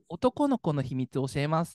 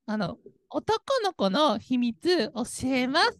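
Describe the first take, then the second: First: It uses a typically male intonation pattern. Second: It uses a typically female intonation pattern. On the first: "男性だとこんな感じじゃないですか" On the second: "女性だと多分"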